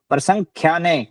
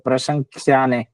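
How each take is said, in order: First: The middle consonant is said as kh. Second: The middle consonant is said as ksh. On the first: The speaker calls it right. "ख। ख खरगोश वाला ख।" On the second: The speaker calls it wrong. "आप यहाँ भी क्षय बोल रहे थे, प्रशंसा ने ऐसे बोल रहे थे"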